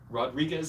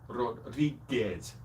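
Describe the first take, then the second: First: It is said with an English accent. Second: It is said with a Spanish accent.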